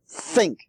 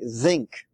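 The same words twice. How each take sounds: First: The first sound is a voiceless th. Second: The first sound is a voiced th. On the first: The speaker calls it right. "it's think" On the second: The speaker calls it wrong. "you wouldn't say think"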